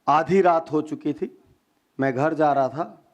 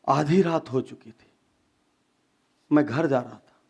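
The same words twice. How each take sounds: First: It is said with hardly any pauses. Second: It is said with clear, deliberate pauses.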